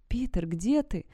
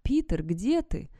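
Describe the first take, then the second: First: Raised-pitch searching call. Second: High, slow eerie call; mimicked voice. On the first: Sarah searching the woods for Peter, raised-pitch call. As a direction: call into the dark for someone. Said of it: "снова позвала я". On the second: Creature copies Sarah's call, high slow rising voice. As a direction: stretch the question out, rising at the end. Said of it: "пугающе идентичным моему". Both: A narrator's reading.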